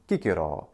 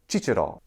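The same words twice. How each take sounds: First: The name begins with a k sound. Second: The name begins with a ch sound. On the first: This is the classical Latin pronunciation. "in classical Latin there is no ch. The letter C is only a k sound" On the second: This is the church Latin pronunciation. "is how his name is pronounced in ecclesiastical Latin"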